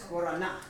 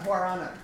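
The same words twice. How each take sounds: First: It uses a South American-style pronunciation. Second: It uses a common English-style pronunciation. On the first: The speaker calls it right. "I say it that way because I got yelled at by a friend from South America" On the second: The speaker calls it wrong. "It's not guarana"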